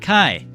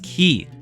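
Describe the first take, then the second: First: The word has the vowel of 'eye'. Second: The word has the vowel of 'key'. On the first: The speaker calls it wrong. "not kai" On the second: The speaker calls it right. "I know it is pronounced as ki"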